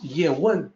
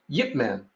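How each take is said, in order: First: The name is said with Mandarin pronunciation. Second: The name is said with Cantonese pronunciation. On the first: "pronunciation of his name in Mandarin is Ye Wen" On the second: "in Cantonese, when phonetically translated to English, is Yip Man"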